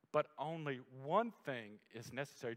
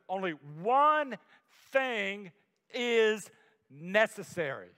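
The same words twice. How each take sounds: First: Said in the usual way. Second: "Only one" slow and louder, each word weighed; slow emphatic stress. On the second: Shown as a demonstration. Preacher refuses to rush the key verse, slow and emphatic. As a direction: lean hard on "Only one", then slowly "thing is necessary". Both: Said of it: "I wanna rush over that".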